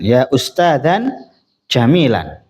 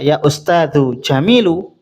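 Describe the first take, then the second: First: The two nouns end in an -an sound. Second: The two nouns end in a short -u sound. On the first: "lebih baik dibaca nasab" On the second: "itu juga tidak masalah"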